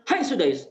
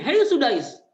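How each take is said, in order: First: A lighter, half-raised call of the name; mother scolding her son again, more restrained; milder mother's shout. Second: Sharp high yell of a name; a mother yelling at her son who wrecked the meal; mother's angry shout. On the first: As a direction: scold him, a little louder. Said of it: "Dia maki anaknya". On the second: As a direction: snap at the naughty boy at full voice. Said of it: "Sampai bentak begini". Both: Retold or imitated.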